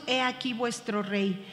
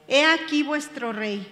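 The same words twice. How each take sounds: First: Said in the usual way. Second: Lightly mocking, a little louder; a touch of mockery. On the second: Pilate presenting Jesus to the crowd, mildly mocking. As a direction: present the king with a hint of scorn. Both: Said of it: "con burla".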